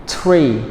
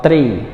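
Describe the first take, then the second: First: Tree begun with t-r, tongue stop and no th. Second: Three said in place of tree as a bad example; wrong word three. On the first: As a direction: say tree with a t sound. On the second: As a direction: say three as the mistake to avoid. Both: Shown as a demonstration. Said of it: "not three".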